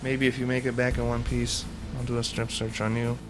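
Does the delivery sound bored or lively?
bored. The line is delivered in a flat, bored tone. The speaker calls it wrong.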